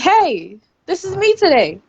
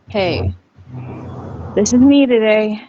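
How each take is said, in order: First: It is said in a happy tone. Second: It is said in a sad tone.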